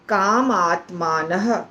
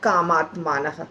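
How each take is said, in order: First: It is said as two separate words. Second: It is said as one joined word. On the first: "दो शब्दों का संधि, काम और आत्मान" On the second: "तो होता है क्या"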